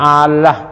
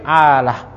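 First: The l sound is doubled and held longer. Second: The l sound is single and short. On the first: The speaker calls it wrong. "jangan bacanya Allah" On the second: The speaker calls it right. "tapi alah, ... mukhaffafah maksudnya tanpa tasdid"

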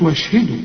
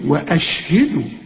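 First: The glottal stop after 'wa' is dropped. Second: The glottal stop after 'wa' is clearly pronounced. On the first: The speaker calls it wrong. "ما تقولش وأشهدوا" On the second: The speaker calls it right. "همزة قطع دي"

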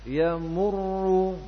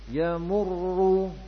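No difference in how they are said.

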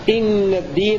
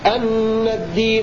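First: The first word starts with the vowel i. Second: The first word starts with the vowel a. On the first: The clause begins a new statement. "وقرأ الباقون بكسر الهمزة" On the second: The clause is a substitute for the preceding statement. "قرأ الكسائي بفتح الهمزة"

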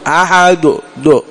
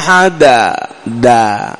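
First: The final d is followed by a u vowel. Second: The final d is followed by an a vowel. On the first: "تقربها إلى الضم" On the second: "تقربها إلى، تخلطها بالفتحة"

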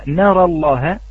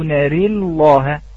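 First: The vowel after the r is an open a. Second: The vowel after the r leans toward e.

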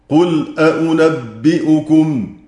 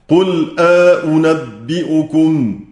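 The two takes are said the same way.

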